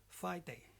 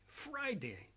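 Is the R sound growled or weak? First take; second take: weak; growled. First: The R sound is weak or replaced. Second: The R is a strong growling sound. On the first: The speaker calls it wrong. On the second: The speaker calls it right. "like to make dogs growling sounds"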